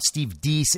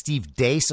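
First: The surname's vowel sounds like 'ee'. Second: The surname's vowel sounds like 'ay'. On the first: The speaker calls it wrong. "It's not Steve Deese" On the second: The speaker calls it right. "it's Steve Dace"

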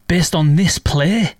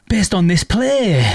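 First: It sounds doubtful, like a disbelieving question. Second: It sounds impressed, like a positive statement. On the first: She doubts the play could earn him an audition. "So she says the exact same words, but totally flips the meaning just by expressing it differently" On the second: She affirms the play earned him the audition. "like that"

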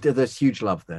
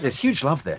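First: The line is said in a plain, casual tone. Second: The line is said with lively, eager enthusiasm.

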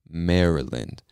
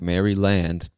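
First: The word is pronounced the natural spoken way. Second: The word is pronounced as it is spelled. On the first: The speaker calls it right. "we just pronounce it Maryland" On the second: The speaker calls it wrong. "I know it looks like Maryland"

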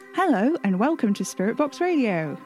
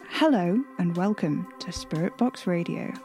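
First: The greeting sounds bright and overly cheerful. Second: The greeting sounds calmer and less cheerful.

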